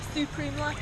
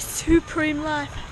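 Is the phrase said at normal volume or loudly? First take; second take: normal; loud. First: It is said at a normal volume. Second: It is said loudly. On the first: "say it again" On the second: "Say it louder for the people in the back"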